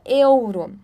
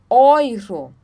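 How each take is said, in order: First: The first vowel sounds like separate 'eh-oo'. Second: The first vowel sounds like 'oy'. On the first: The speaker calls it wrong. "a gente não fala euro" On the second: The speaker calls it right. "nós falamos euro"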